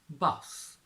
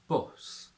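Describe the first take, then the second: First: It has a standard British 'uh' vowel. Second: It has a Yorkshire 'oo'-like vowel. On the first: "from R P" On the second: "to Yorkshire"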